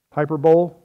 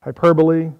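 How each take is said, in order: First: "Hyperbole" said as hyper-bowl, three syllables; wrong pronunciation. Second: "Hyperbole" said hy-PER-bo-lee, four syllables; correct pronunciation. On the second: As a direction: say "Hyperbole" properly, ending in lee. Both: Shown as a demonstration. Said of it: "How about this word?".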